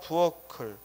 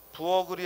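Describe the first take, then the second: First: The middle consonant is an aspirated k sound. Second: The middle consonant is a plain g sound. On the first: The speaker calls it right. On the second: The speaker calls it wrong. "아니라"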